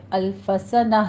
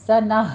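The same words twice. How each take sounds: First: الف سنہ said with the alif wrongly kept; wrong pronunciation. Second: سنہ said louder with a breathed ha at the end; correct pausal form. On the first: Teacher showing students the wrong pausal form. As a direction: show the mistake الف سنہ plainly. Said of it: "الف سنہ نہیں کہنا". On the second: Teacher giving the correct pause on سنہ. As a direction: end سنہ on a clear ha sound. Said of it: "آخر میں ہاں کی ساؤنڈ آنی چاہیے". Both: Shown as a demonstration.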